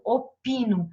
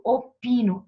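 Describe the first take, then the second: First: Said in the usual way. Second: Opino said louder, with the pi syllable hit clearly; stressed syllable shown. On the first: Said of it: "tá vendo?". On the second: Shown as a demonstration. Teacher showing the class the stressed syllable, punching pi in Opino. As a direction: lean on the pi of Opino so students hear the strong syllable. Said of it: "Isto daqui é a minha sílaba mais forte".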